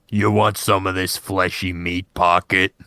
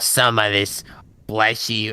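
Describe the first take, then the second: First: The voice is pitched lower. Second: The voice is pitched too high.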